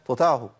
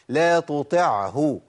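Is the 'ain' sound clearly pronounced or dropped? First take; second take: dropped; clear. First: The ain is dropped. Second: The ain is clearly pronounced. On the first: The speaker calls it wrong. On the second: The speaker calls it right.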